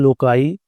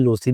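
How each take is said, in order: First: The word ends with an 'eye' sound after k. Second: The word has an s sound and ends in 'ee'. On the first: "लोकाई मुझे ज़रा बेहतर लगता है" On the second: "इसे लोसी भी पढ़ते हैं"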